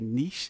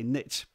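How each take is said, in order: First: It is said the European way. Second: It is said the North American way.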